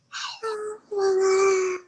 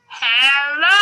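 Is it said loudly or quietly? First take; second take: quietly; loudly. First: It is said very quietly. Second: It is said very loudly.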